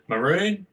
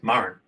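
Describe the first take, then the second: First: The word carries a heavy added stress. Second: The word is said without the added stress. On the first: This is how English speakers usually say it. The speaker calls it wrong. "we like to pronounce it maroon as Westerners, um, often liking to whack a bit of emphasis" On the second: This is the original word. The speaker calls it right. "but the old word is Murrin"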